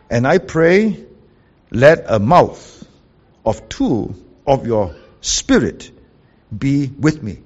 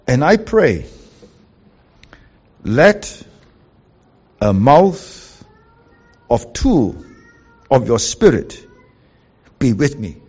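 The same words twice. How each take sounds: First: Slowed right down, each phrase drawn out; slow reread. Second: Each phrase pushed out louder with pauses; read out emphatically. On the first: Preacher repeating the literal verse for the congregation, very slowly. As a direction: repeat it slowly so every word sinks in. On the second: Preacher reading the literal translation to the congregation, firm and emphatic. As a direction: read the literal Hebrew line word by word, firmly. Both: Shown as a demonstration. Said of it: "So the literal is this".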